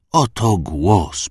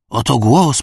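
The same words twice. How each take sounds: First: Very slow, drawn-out words; the priest presents the voice, very slowly; slow solemn announcement. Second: Higher, louder proclamation; the priest repeats it higher and louder to the crowd; raised repeat. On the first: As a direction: announce it reverently, stretching every syllable. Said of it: "powiedział mężczyzna". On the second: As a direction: lift it up triumphantly. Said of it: "powtórzył". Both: A narrator's reading.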